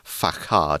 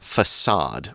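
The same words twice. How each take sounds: First: The c is said as a hard k sound. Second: The c is said as an s sound. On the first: The speaker calls it wrong. "rather than facade. It's not a hard K sound" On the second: The speaker calls it right. "it's pronounced more like an S sound"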